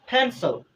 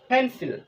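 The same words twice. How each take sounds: First: The p is said with a puff of air. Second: The p is said without a puff of air. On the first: The speaker calls it right. "This right pronunciation" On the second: The speaker calls it wrong. "Not this right pronunciation"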